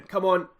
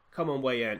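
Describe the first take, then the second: First: Louder, higher plea of come on; a fan's pleading yell; urgent shout. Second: Said in the usual way. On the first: Real, not acted. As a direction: burst out with it as the kick comes. Urging before the penalty.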